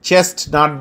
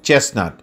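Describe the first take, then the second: First: The t in the middle is sounded. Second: The t in the middle is silent. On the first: The speaker calls it wrong. "But চেস্টনাট বলা যাবে না" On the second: The speaker calls it right. "টি silent রেখে বলতে হবে"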